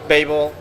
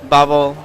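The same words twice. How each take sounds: First: Babel said as BAY-bul; English pronunciation. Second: Babel said as BAH-bul; open A pronunciation. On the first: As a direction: say Babel with an "ay" first vowel. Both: Shown as a demonstration. Translator compares two pronunciations.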